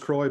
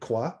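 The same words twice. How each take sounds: First: The word is said in the local, non-French way. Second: The word is said with a French pronunciation. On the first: "the most popular way of pronouncing this in my neck of the woods" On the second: "those of us who are more particular about French"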